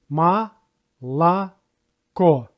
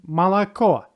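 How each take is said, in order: First: Молоко drawn out as "ma... la... KO"; syllable by syllable. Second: Said in the usual way. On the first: Shown as a demonstration. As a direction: split Молоко into three slow, separate syllables. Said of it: "It has three syllables". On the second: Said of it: "first and the second syllables have no stress".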